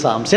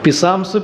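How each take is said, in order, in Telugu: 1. ఈ పదం S ధ్వనితో మొదలవుతుంది. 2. ఈ పదం ధ్వనించే P తో మొదలవుతుంది. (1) "అది ఓన్లీ సామ్స్" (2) "పిసామ్స్ పీకా కాదు"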